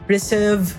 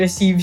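First: The second syllable has a short i vowel. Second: The second syllable has a long e vowel. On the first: The speaker calls it wrong. "it's exchanging the long E and short I" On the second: The speaker calls it right. "dapat receive siya"

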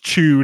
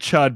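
First: The word has a long 'oo' vowel. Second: The word has a short 'uh' vowel. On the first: This is how it is said in the film. The speaker calls it right. "I guess it's chewed is how they say it in the in the movie" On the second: This is how the speaker had always said it. The speaker calls it wrong. "I always said chud"

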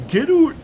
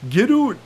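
First: It is said in a Canadian accent. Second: The same.

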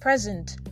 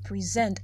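First: The stress is on the first syllable. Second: The stress is on the second syllable. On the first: A gift. "a gift" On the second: To give or show something to someone. "I give to you, present to you this something"

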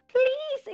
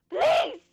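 First: It is said calmly and politely. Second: It is screamed with rage.

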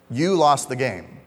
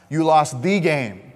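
First: The stress falls on the word 'you'. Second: The stress falls on the word 'game'. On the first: The listener personally is blamed. "there's some blame in that" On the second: The importance of this particular game is the focus. "it's a big game. You lost of all games to lose, you lost this game"

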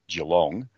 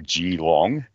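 First: It is said with an Australian pronunciation. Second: It is said with an American pronunciation.

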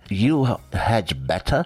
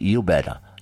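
First: The word 'had' is said in full. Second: The word 'had' is left out completely. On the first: "Instead of saying you had better" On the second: "instead of the contraction, they just say you better"

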